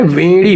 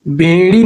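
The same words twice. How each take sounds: First: वेड़ी starting with v; correct v sound. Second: बेड़ी starting with b; wrong b sound. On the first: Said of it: "वेड़ी होता है". (वेड़ी में शुरू में 'व') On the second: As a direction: say बेड़ी as bay-ree with lips closed on b. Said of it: "बेड़ी नहीं होता है". (बेड़ी में शुरू में 'ब') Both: Shown as a demonstration.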